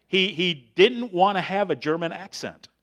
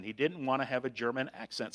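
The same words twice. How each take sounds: First: Raised and louder, pressing the point; emphatic. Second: Said in the usual way. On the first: Retold or imitated. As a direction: push this line up and out for emphasis. Retelling, repeated for emphasis.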